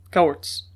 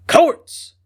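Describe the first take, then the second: First: Said in the usual way. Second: Sudden eager cry, much higher and louder; fierce eagerness. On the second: A narrator's reading. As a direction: burst out the name with fierce eagerness. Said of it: "in sudden, fierce eagerness".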